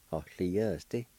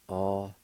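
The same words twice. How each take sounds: First: Said in the usual way. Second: Ahlieste very slowly, long pauses between syllables. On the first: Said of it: "pronounced like this". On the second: Shown as a demonstration. Teacher showing how it's pronounced, slow syllable by syllable. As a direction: break Ahlieste into Ah, lie, es, te. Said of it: "It's pronounced like this".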